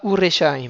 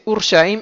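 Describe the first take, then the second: First: A short vowel separates the r and sh. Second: The r and sh run together, with no vowel. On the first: The speaker calls it wrong. "et pas Ureshaim" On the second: The speaker calls it right. "C'est Urshaim"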